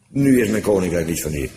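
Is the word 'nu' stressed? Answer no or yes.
no. The word nu is not stressed. The sentence marks a contrast with what people think. "Maar, tegenstelling"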